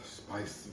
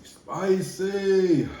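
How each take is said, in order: First: Near-silent gasp from the burn; gasping whisper. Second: Spicy cried high and loud, falling; loud exclaim. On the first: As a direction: breathe the word out. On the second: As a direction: yell spicy out at the burn. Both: Real, not acted.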